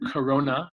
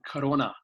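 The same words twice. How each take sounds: First: It is said with an English pronunciation. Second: It is said with an Amharic pronunciation. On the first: "so the name Corona" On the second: "they pronounce it Corona"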